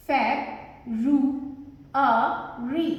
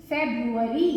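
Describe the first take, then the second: First: "फेब, रू, अ, री" with a pause after each; four isolated beats, "फेब, रू, अ, री"; syllable by syllable. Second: Said in the usual way. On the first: Shown as a demonstration. Teacher sounding out word by syllables.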